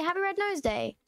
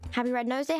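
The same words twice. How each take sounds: First: Higher, lilting greeting; raised cheer. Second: Said in the usual way. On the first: Real, not acted. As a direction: lift "Happy Red Nose Day" high, then drop at the end. Repeats greeting with raised tune.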